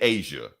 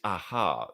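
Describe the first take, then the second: First: The middle consonant is a 'j' sound. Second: The middle consonant is an 'h' sound. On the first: The speaker calls it wrong. "I was saying Asia" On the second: The speaker calls it right. "other people saying that it's aha"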